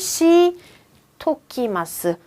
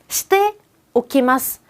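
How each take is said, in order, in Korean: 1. te와 o가 한 음절로 합쳐져요. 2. 이 표현의 모든 음절을 따로따로 발음해요.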